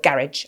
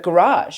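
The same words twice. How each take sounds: First: It is said with a British pronunciation. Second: It is said with an American pronunciation. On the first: "it says it in English in my head" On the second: "say it in American for you to hear it nicely"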